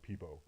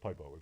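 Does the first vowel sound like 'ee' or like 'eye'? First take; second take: ee; eye. First: The first vowel sounds like 'ee'. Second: The first vowel sounds like 'eye'. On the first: The speaker calls it wrong. "It's not Peepo" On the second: The speaker calls it right. "It's Pipo because it's clearly a pipe"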